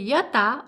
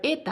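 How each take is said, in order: First: The word begins with a full 'ya' sound. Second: The word begins with a reduced 'e' sound. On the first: "this is written ya-ta" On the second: "whenever we say it very quickly, we tend to pronounce ya as a"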